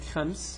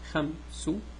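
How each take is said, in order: First: It ends in a bare s sound. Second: It ends with a short u vowel. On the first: "You take خمس" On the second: "add ضمة to be خمس"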